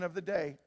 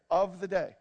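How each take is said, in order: First: Said in the usual way. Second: Firm stress on "of the day"; emphatic repeat. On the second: Real, not acted. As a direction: punch "of the day" to underline it.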